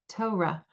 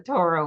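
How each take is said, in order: First: The first syllable sounds like 'toe', with no r. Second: The first syllable sounds like 'tore', with an r. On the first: It marks the speaker as a member of certain communities. "T O E dot R A H" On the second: It lets the word 'or' be heard in the middle. "pronounce it the Torah way to hear the or in the middle"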